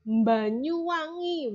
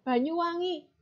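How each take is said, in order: First: Banyuwangi with a nasal m- onset, drawn out slowly; prenasalized mBanyuwangi, stretched long; Javanese accent. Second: Said in the usual way. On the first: Shown as a demonstration. Teacher demonstrating to students: Banyuwangi as mBanyuwangi. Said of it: "begitu kan ya?". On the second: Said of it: "Banyuwangi, begitu kan ya?".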